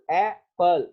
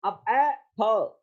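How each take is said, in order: First: एप्पल said whole, as one smooth word; एप्पल spoken as a single clear word for the class; apple demo. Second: एप्पल slowed down, each part drawn out; slowed-down एप्पल for the students; slow apple demo. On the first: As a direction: give एप्पल in one clean go, stressed. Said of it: "एक syllable की तरह एप्पल". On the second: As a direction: stretch एप्पल slowly so every sound shows. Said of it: "अब इसमें एप्पल". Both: Shown as a demonstration.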